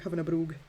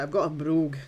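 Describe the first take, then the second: First: Said in the usual way. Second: A broad, hammed-up Scottish accent, a little louder; playful Scottish accent, savouring the word brogue. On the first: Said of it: "when you say it with a Scottish accent". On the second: Shown as a demonstration. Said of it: "It does sound good though when you say it with a Scottish accent".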